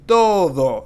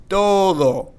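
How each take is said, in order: No difference in how they are said.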